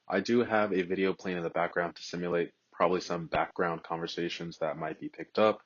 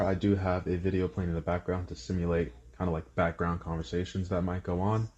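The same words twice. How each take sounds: First: Lower, softer voice through AirPods microphone; AirPods mic test. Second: Softer voice through Galaxy Buds microphone; Galaxy Buds mic test. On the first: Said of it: "test of me talking with the AirPods Pro". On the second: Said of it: "talking test of the Galaxy Buds Pro". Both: Shown as a demonstration.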